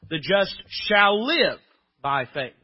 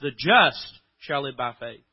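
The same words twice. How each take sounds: First: The stress is on "shall live". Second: The stress is on "just".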